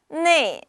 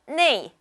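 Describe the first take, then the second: First: The vowel sounds like 'nei'. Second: The vowel sounds like 'nei'.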